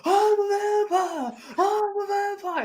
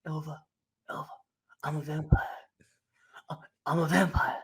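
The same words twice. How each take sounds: First: High, drawn-out crazed wail; mock scream. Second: Hushed, halting mumble with long pauses; mock dazed whisper. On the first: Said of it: "screaming down the street". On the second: Retold man muttering over fallen woman.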